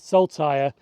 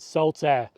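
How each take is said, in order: First: The name ends with a 'tire' sound. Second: The name ends with an 'air' sound. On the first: The speaker calls it wrong. "I did call this station Saltire, ... I mispronounced it" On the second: The speaker calls it right. "we have reached the penultimate station"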